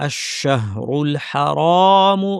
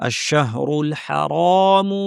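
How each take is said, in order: The two takes are said the same way.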